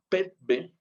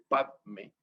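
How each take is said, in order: First: It is said with pet and a b sound. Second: It is said with pad and an m sound. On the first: This is the Tibetan form. "los tibetanos usan más bien la forma petbe" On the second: This is the Sanskrit form. "en sánscrito se escribe padme"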